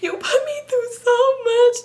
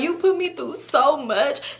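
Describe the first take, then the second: First: It is said in a heavy crying voice. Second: It is said in a more normal voice.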